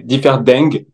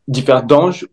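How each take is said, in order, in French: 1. Le nom se prononce à la luxembourgeoise. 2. Le nom se prononce à la française. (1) "en luxembourgeois, c'est Differding" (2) "on peut dire Differding"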